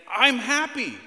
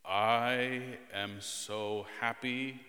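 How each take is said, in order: First: High, loud, joyful burst; happy exclamation. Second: Very slow, drawn-out, joyless delivery; sarcastic monotone. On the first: Dad showing children the happy tone, exuberant shout. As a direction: shout it out with genuine-sounding delight. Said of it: "and saying". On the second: Dad asking children to compare tones, sarcastic drone. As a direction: drag out each word with no enthusiasm at all. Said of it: "One sounds sarcastic". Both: Shown as a demonstration.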